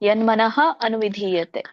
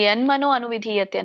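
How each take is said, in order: First: The first word ends with a breathy 'ah' sound. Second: The first word ends with an 'o' sound. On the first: The speaker calls it right. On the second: The speaker calls it wrong.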